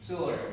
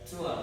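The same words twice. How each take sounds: First: It is said in an American accent. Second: It is said in a British accent.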